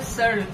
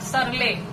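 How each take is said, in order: First: The name ends without an 'ee' sound. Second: The name ends with an 'ee' sound. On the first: The speaker calls it right. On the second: The speaker calls it wrong.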